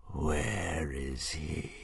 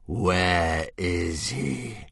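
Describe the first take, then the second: First: Very slow, much softer dying-dragon voice; weak dragon hiss. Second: Very slow monstrous voice, gathering strength; stronger dragon hiss. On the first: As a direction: rasp it out with the last of your strength. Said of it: "he hissed weakly". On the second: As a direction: menace rising as the dragon rallies. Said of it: "hissed a little more strongly". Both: Acted.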